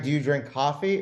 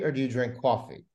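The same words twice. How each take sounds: First: "coffee" with an open ah, CAH-fee; Toronto "coffee". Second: "coffee" with a rounded aw, CAW-fee; New York vowel in "coffee". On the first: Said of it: "It's coffee. It's not co". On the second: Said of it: "it's coffee". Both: Shown as a demonstration.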